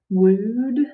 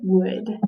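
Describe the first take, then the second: First: The vowel is a long oo sound. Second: The vowel is a short uh sound. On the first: The speaker calls it wrong. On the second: The speaker calls it right.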